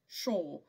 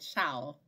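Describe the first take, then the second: First: The word sounds like sure, with a closed vowel. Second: The word has an open vowel, said mouth open. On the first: This is how many people in England say it. "here in England, I've heard people saying sure many times" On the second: This is closer to the dictionary transcription. "I'll be saying shall with my mouth open"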